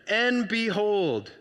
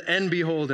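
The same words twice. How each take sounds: First: "And behold" drawn out slowly and weightily; dramatic and behold. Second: Said in the usual way. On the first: Shown as a demonstration. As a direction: stretch "And behold" like a big reveal. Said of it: "that's like, watch out". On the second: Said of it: "Anytime it says".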